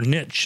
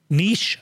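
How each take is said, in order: First: It is said in an American accent. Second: It is said in a non-American accent.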